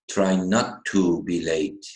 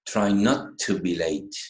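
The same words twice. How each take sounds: First: The word 'to' is said fully, with stress. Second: The word 'to' is reduced and unstressed. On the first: The speaker calls it wrong. "most of the students would say" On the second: The speaker calls it right. "the pronunciation should be like this"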